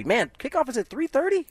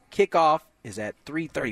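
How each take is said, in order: First: High, rising surprised question. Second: Said in the usual way. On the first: Real, not acted. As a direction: sound caught off guard by it. Reacting to the kickoff time.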